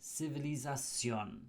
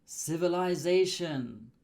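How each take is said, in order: First: "civilización" as see-vee-lee-sah-SYON, softer; Spanish pronunciation. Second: "Civilization" as siv-uh-lie-ZAY-shun; English pronunciation. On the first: Teacher converts it for learners, softer Spanish "civilización". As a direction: stress final SYON in "civilización", dropping softly. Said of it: "and it becomes". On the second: Teacher presents the English word, English pronunciation of "Civilization". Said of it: "we change the T I O N". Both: Shown as a demonstration.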